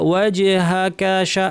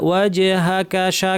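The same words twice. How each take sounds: Both takes have the same delivery.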